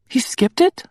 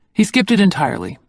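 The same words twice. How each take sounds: First: Rising on it, high disbelief; incredulous he skipped it; surprised question. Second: Skipped stressed, falling at the end; weighty stress on skipped; firm confirmation. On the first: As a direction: ask as if you can't believe it. Disbelieving question about the father. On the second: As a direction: state skipped as a bitter fact. Flat confirmation of hurt. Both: A narrator's reading.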